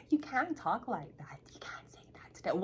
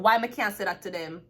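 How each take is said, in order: First: Scandalized whisper, acted out; hushed warning. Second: Louder, indignant comeback; defiant retort. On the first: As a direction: whisper it as a mock warning to stop. Imitates someone hushing the speaker. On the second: Acted. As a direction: fire back loudly at the hushed warning. Defiant answer to the whispered warning.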